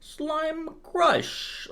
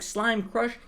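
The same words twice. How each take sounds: First: It is said in an Italian mob-boss accent. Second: It is said in a plain, normal voice.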